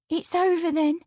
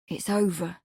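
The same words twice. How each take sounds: First: High, hesitant maid's question; hesitant young woman. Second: Lower, firm reassurance. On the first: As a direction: ask shyly, hoping. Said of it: "with a pretty hesitation". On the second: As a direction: settle it firmly. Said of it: "Lawrence said firmly". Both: A narrator's reading.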